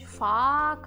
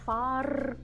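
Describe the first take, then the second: First: No r sound is pronounced after the vowel. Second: An r sound is pronounced after the vowel. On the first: The speaker calls it right. "Кажуть фа, карте" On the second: The speaker calls it wrong. "можна було б там вимовляти фар, карте. Але так ніхто не каже"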